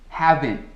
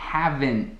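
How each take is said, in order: No difference in how they are said.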